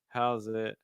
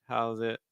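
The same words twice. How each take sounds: The two takes are said the same way.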